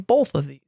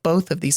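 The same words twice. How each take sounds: First: Both is said with a slight L sound. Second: Both is said without any L sound. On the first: "I kind of throw in a little L" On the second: "I don't say both, like both of these"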